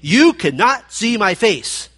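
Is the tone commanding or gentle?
commanding. It is said sternly, like a command. It is a prohibition. "This was not a prohibition"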